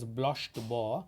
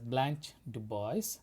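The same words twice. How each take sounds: First: It is said with a French pronunciation. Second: It is said with an American pronunciation.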